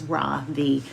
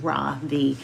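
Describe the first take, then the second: First: The stress is on the second syllable. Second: The same.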